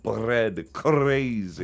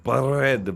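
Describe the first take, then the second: First: "Bread, crazy" with trilled R's; rolled R demo. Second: "Bread" said with a strongly rolled, trilled R; rolled R demo. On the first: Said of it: "or some shit like that". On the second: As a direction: trill the R in "Bread" hard and loud. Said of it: "And I'll just be like". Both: Shown as a demonstration.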